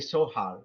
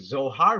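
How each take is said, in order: First: The word begins with a hissing s sound. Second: The word begins with a buzzing z sound. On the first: This is the German way of saying it. "They say Sohar with the letter S" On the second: This is the English way of saying it. "in English we say Zohar"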